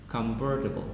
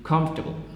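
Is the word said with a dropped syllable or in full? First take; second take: full; dropped syllable. First: Every syllable is pronounced. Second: One unstressed vowel is dropped.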